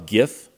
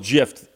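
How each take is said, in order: First: The G is hard, as in graphic. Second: The G is soft, like a J. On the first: "since a G came from graphic, I would have thought it was GIF" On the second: "I'll go with GIF in deference to the inventor"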